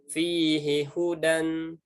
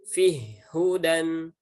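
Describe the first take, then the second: First: The first h keeps its vowel before hudan. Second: The vowel drops and the h links into hudan. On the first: It is read as it is written. "tulisannya fihi hudan ya" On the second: It follows a reading where the first letter is merged into the second. "dibacanya menjadi fih hudan ya"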